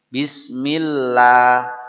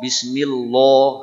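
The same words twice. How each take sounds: First: The 'lah' is said thin and light. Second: The 'lah' is said thick and heavy. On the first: The speaker calls it right. "ini kasroh inilah yang menyebabkan ini la" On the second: The speaker calls it wrong. "sok lekoh ... salah"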